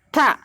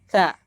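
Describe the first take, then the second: First: The sound is said with strong force. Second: The sound is said weakly, without force. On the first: The speaker calls it right. "Syiddah itu harus dibaca apa? Dengan kuat" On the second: The speaker calls it wrong. "Ini salah. Kenapa? Karena lemah"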